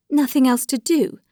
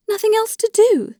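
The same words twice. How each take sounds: First: Higher, restrained pained question; tearful disbelief. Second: Very high, anguished repeated question; tearful disbelief. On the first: Dolly echoes Alexei's resolve on divorce, in restrained tearful disbelief. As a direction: echo it back in hurt disbelief. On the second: Dolly protests Alexei's resolve on divorce, in high-pitched tearful disbelief. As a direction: repeat it much higher, in distressed protest. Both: A narrator's reading. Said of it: "she replied with tears in her eyes".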